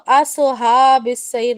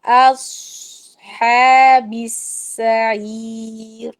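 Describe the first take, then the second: First: اصحاب السعیر with a bouncing qalqalah on the ص; اصحاب with a jerky rebound on the ص; wrong pronunciation. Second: Slow اصحاب with a heavy whistling ص held, then a throaty ح; اصحاب السعیر recited slowly and smoothly; correct tajweed. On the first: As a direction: demo the error: make the ص in اصحاب echo. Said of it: "آپ اس کو ... نہیں بول سکتے". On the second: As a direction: stop the ص with a hiss and go to the ح from the throat. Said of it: "پھر آپ ہا پر جائیے". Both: Shown as a demonstration.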